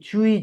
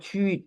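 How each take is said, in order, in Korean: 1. 모음이 u에서 i로 미끄러져요, 천천히 발음해요. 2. 모음은 하나의 일정한 소리이고, 빠르게 발음해요. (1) "조금 느리게 발음해서 입모양이 변하는 걸" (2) "한 번에 발음하는 게"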